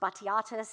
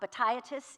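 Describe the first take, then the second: First: The name is said with a non-British pronunciation. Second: The name is said with a British pronunciation.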